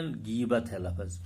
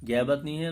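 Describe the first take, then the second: First: غیبت said "ghibat" with a short i under the gh, slowly; slow teaching demo of غیبت with a clear i; correct pronunciation. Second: غیبت said as "gheybat" with an e sound after gh; wrong pronunciation. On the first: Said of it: "صحیح تلفظ ہے غیبت". (غیبت کا صحیح تلفظ، غین کے نیچے زیر کے ساتھ، آہستہ) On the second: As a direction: demo the wrong way: غیبت as gheybat, not ghibat. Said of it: "غیبت لفظ نہیں ہے". (غیبت کا غلط تلفظ، غین کے نیچے زیر کے بغیر) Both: Shown as a demonstration.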